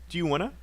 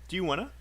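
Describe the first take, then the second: Both takes have the same delivery.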